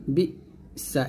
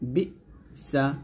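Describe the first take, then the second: No difference in how they are said.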